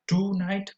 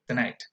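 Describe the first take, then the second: First: The first vowel is full and clear. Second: The first vowel is a relaxed schwa. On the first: The speaker calls it wrong. "Not tonight" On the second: The speaker calls it right. "but tonight"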